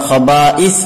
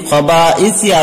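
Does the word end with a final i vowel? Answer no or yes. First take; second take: no; yes. First: The word ends on the s sound. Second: The word ends with a final i vowel. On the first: The reader is stopping here. "আমরা এখানে ওয়াকফ করছি যেহেতু থামছি" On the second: This is the full written form. "খবা ইসি আছে বানানে"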